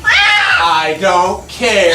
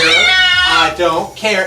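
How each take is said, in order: First: Slow drawn-out. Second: Said in the usual way. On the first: Real, not acted. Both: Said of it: "repeated line".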